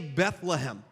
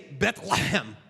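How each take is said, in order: First: The middle sound is a soft plain h. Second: The middle sound rasps at the back of the throat. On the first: This is the usual English way of saying it. "they don't say Bethlehem" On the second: This is how people in Israel say it. "you got to get the back of your throat, some phlegm back there"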